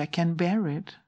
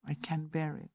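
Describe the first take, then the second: First: Low-key little voice. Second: Much softer, barely voiced "I can bear it"; hushed inner sentence; very quiet inner voice. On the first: Retold or imitated. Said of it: "a little voice came". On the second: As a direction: say it as a tiny inner voice. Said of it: "It's so low key".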